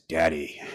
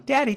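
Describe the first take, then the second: First: It sounds calm, wise and mature. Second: It sounds light and childlike.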